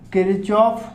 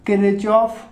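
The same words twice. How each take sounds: The two takes are said the same way.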